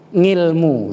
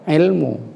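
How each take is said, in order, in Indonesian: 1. Kata ini diawali bunyi 'ng' yang ditambahkan. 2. Kata ini langsung diawali dengan vokal 'i'. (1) "dalam bahasa ngomong Jawa itu memang biasa ngilmu"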